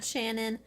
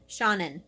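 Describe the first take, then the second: First: The name is said like Shannon. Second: The name is said like Sean-in. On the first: The speaker calls it wrong. "Not Shannon. I was close though" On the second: The speaker calls it right. "It's Seanan. Sean in"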